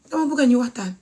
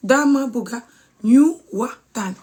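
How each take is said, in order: First: Said in the usual way. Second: Slowly, with a pause after bugga; slow demonstration. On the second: Shown as a demonstration. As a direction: break the phrase into slow, separate words for learners. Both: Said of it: "I'll try and say it slowly".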